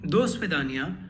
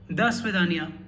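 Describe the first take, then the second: First: The first vowel sounds like a full o. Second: The first vowel sounds like a reduced a. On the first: The speaker calls it wrong. "it's not dosvidania" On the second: The speaker calls it right. "but dasvidania"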